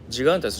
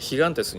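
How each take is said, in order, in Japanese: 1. この単語は『j』の音で始まります。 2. この単語は『h』の音で始まります。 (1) "ジガンテスじゃなくて" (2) "ヒガンテスになるので、ハヒフヘホになるんですね"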